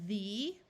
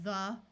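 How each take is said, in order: First: The vowel is long, like 'thee'. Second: The vowel is short and reduced, like 'thuh'. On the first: "we will try the vowel's long sound" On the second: "our mouths get a little lazy"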